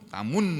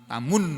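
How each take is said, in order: No difference in how they are said.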